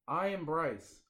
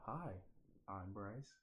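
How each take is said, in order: First: It is said loudly. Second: It is said quietly.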